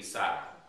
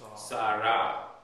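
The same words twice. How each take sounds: First: The stress is on the first syllable. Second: The stress is on the last syllable. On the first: "If it was two medium vowels, it would be" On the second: "Sarah is also two long vowels"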